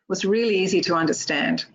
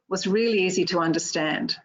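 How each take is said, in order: The two takes are said the same way.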